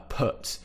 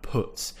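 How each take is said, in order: First: "put" said with a lazy schwa, like "puht"; the common variant, "put" with a relaxed uh; schwa version. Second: "put" with a short rounded u, as in foot; the model take: lips small and round on "put"; southern short u. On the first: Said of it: "pronounce it a bit like a schwa sound and it kind of becomes put". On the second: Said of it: "it's more of an uh sound, put". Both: Shown as a demonstration.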